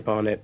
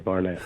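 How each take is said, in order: First: The name is said with a British pronunciation. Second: The name is said with an American pronunciation. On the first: This is the name owner's own pronunciation. "I say Barnett" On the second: This is how others from abroad say it. "Americans say Barnett"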